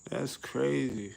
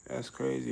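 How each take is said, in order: First: Slow, laughing through the word crazy; laughing disbelief. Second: Said in the usual way. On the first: Real, not acted. Laughing at the life sentence, slow amused disbelief. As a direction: let the laugh carry it out slowly.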